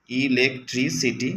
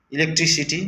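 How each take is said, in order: First: electricity repeated slowly syllable by syllable. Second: electricity said higher, announced; new word introduced. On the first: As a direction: spell out electricity slowly for pupils. (Electricity ধীরে আবার বলা) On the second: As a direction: call out electricity brightly to the class. (Electricity উঁচু গলায় ঘোষণা) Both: Shown as a demonstration.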